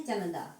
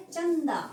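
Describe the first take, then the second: First: चंदा lower, as "cha-nan-da"; wrong pronunciation. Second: चंदा higher, with a held nasal first syllable; correct pronunciation. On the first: Teacher showing the incorrect form, चंदा with a full n. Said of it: "अशुद्ध क्या है". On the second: Teacher giving the right form, चंदा stressed and nasal. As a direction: say चंदा as an emphatic "chan-daa". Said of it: "सही क्या है". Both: Shown as a demonstration.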